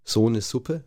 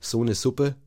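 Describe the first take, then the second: First: The S in Suppe is voiceless, southern German style. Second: The same.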